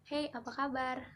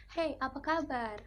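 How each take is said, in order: First: Light Jakarta way of greeting; breezy western Indonesian hey, apa kabar; Jakarta accent. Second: Louder, higher, slower eastern Indonesian greeting, kaba with the r dropped; hey, apa kaba in a strong eastern Indonesian lilt; eastern Indonesian accent. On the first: A student demos a Jakarta greeting, light Jakarta accent. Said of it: "orang Indonesia bagian barat ... Jakarta". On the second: A student demos an eastern Indonesian greeting, strong eastern Indonesian accent. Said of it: "orang Indonesia bagian timur". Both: Shown as a demonstration.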